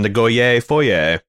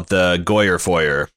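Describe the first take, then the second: First: It is said with a British pronunciation. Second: It is said with an American pronunciation.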